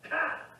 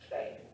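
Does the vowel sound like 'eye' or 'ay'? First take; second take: eye; ay. First: The vowel sounds like 'eye'. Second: The vowel sounds like 'ay'. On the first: The speaker calls it wrong. "Erasmus would say Chi, but that's not the proper way to pronounce it" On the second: The speaker calls it right. "Alpha Iota is a diphthong, pronounced A"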